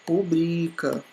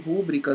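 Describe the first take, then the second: First: The stress is on the second syllable. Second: The stress is on the first syllable. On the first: The speaker calls it right. "O correto é rubrica" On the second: The speaker calls it wrong. "não é rúbrica. E não tem esse acento aqui"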